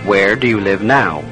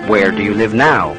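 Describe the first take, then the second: No difference in how they are said.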